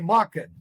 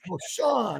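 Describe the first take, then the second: First: The middle consonant is a 'k' sound. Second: The middle consonant is an 'sh' sound. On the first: This is how locals in Phoenix say it. The speaker calls it wrong. "In Phoenix, we say Macken" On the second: This is the company's proper pronunciation. The speaker calls it right. "but it's Marshawn Eyewear"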